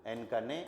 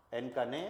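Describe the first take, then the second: No difference in how they are said.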